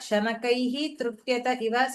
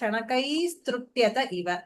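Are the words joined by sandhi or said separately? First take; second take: separate; joined. First: The words are said apart, ending in a breath sound. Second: The words are run together with an s sound. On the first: "சந்தி பிரிச்சு சொல்லும் போது" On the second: "சேதா"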